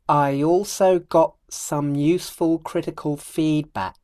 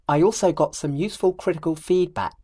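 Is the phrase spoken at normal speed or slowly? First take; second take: slow; normal. First: The phrase is spoken very slowly. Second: The phrase is spoken at normal speed. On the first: "I'll do it very slowly" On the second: "then I'll do it at normal speed"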